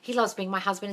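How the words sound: It is said with lively, sincere conviction.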